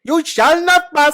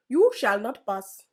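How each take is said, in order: First: Loud, high, slow shout of the line in a mock Indian accent. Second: Put-on mild Indian accent. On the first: Friend challenges him to an Indian accent, he shouts it. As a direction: bellow it like an Indian Gandalf. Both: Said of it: "in an Indian accent".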